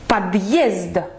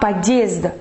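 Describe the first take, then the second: First: The two syllables are clearly split apart. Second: The two syllables run together without a break. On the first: The speaker calls it right. "on veut faire подъезд" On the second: The speaker calls it wrong. "Pas подъезд. Pour ne pas faire la liaison"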